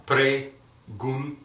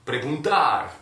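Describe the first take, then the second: First: Preguntar drawn out very slowly, syllable by syllable; slowed down. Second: Preguntar said fast and louder, stress on -tar; model pronunciation. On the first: Teacher slows Preguntar way down so students can follow. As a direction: stretch Preguntar out slowly for learners. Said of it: "Slow down". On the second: Teacher says preguntar quickly to the class. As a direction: say preguntar at full speed. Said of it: "That's going to be in Spanish". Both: Shown as a demonstration.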